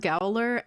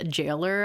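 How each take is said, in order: First: The word starts with a hard g sound. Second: The word starts with a soft j sound. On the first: The speaker calls it wrong. "I used to pronounce them as Gowler" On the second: The speaker calls it right. "I learned they're pronounced Jailer"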